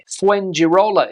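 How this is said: It is said with an English accent. The speaker calls it wrong. "is how an English speaker would pronounce this place"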